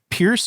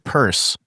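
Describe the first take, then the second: First: The name rhymes with fierce. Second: The name rhymes with nurse. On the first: "is it Pierce or Purse?" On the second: "is it Pierce or Purse?"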